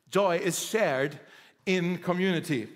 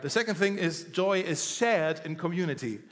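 First: "Joy is shared in community" slowed right down, each word weighted; slow emphatic repeat. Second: Said in the usual way. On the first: Shown as a demonstration.

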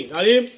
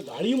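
First: Said loudly. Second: Said in the usual way. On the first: Shown as a demonstration. Teacher showing the class how loudly डाळिंब was said. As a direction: bark out डाळिंब. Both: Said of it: "एवढं जोरात म्हणले".

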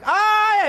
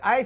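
First: Sudden high, loud yelp of pain; pained yell. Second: Said in the usual way. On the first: Acted. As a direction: cry out as if scalded. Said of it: "השני צועק". (צעקת כאב חדה וגבוהה) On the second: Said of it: "אם אתה צועק".

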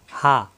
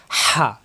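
First: "হা" said open from the top of the throat; open-mouthed ha. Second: "হা" squeezed from mid-throat with strong friction; throat-pressed ha. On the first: Teacher contrasting two letters, "হা" open and light. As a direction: say "হা" with an open, unpressed breath. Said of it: "এই হায়ে মুখ খোলা". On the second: Teacher contrasting two letters, "হা" pressed in the throat. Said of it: "কণ্ঠনালীর চাপ". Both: Shown as a demonstration.

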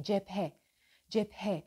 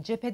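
First: Cephe with a clearly voiced h. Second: Cephe said without the h; dropped h. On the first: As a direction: sound the h in cephe fully. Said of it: "H harfi her zaman yutulur". (cephe h net söylenerek) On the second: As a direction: swallow the h in cephe. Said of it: "cephe demeyin". (cephe h yutularak) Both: Shown as a demonstration.

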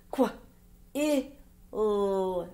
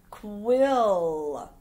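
First: "Qu-, i-l" as short kw, short i, held lll; sounded out. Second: Said in the usual way. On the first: Shown as a demonstration. Teacher reading words with pupils, "Qu-, i-l" sound by sound. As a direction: say "Qu-, i-l" as three sounds with gaps.

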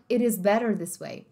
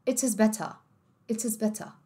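First: "It is better this way" with flapped Ts; American linking. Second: "It is better" with crisp Ts and no R; British T. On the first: Teacher contrasting accents, American flapped "It is better". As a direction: link "It is", flap "better", sound its R. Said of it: "no inglês americano". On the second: Teacher contrasting accents, British crisp-T "It is better". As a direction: end "better" on an open ah, Ts clearly released. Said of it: "E no britânico". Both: Shown as a demonstration.

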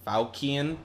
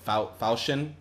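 First: Falchion as "FOW-kee-un", rising questioningly; unsure pronunciation. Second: Falchion said as "FOW-shun", after a false start; unsure pronunciation. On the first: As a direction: test Falchion with a hard K, like a question. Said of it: "I don't know". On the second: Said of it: "don't even know how to say it". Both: Real, not acted.

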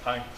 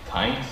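First: Said in the usual way. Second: THANKS raised into a disbelieving question; incredulous THANKS. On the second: Acted. Acted incredulous repeat of reply.

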